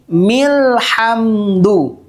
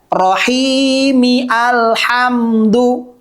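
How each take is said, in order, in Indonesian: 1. Vokal awalnya dihilangkan, tersambung menjadi milhamdu. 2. Vokal awal alhamdu diucapkan terpisah. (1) "maka bunyinya menjadi milhamdu" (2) "bacaannya tidak rohimi alhamdu"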